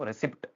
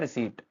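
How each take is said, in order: First: A p sound is heard before the final t. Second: No p sound is heard before the t. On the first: The speaker calls it wrong. "रिसिप्ट नहीं होता है" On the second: The speaker calls it right. "यहाँ silent रहता है आपका पी"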